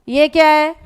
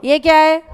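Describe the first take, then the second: Both takes have the same delivery.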